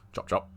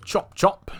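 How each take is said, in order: First: Soft, offhand hurry-up; low-key urging. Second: High, sing-out hurry-up; high-pitched urging. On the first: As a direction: hurry her along under your breath. Hurrying game companion along. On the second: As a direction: call her along in a raised pitch. Hurrying game companion along, repeated higher. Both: Pretend.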